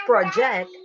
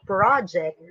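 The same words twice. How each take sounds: First: "project" as pro-JECT, to project on camera; stress on second syllable. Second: "project" as PRAH-ject, the school noun; stress on first syllable. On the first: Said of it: "You have to project in the camera". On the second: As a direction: lean on an open PRAH in "project". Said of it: "It's the name of what you do in school". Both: Shown as a demonstration.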